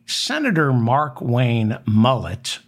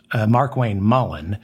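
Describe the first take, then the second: First: "Mullett" said like the haircut, MULL-et; deliberately botched "Mullett" for Mullen; mock slip of the name. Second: Said in the usual way. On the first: Shown as a demonstration. Host deliberately botches the senator's name as Mullett.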